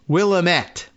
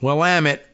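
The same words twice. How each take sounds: First: The word does not rhyme with 'damn it'. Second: The word ends rhyming with 'damn it'. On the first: The speaker calls it wrong. "even though it looks like you might want to uh, pronounce it as Willamette, which I'm sure I did first" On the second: The speaker calls it right. "But Willamette"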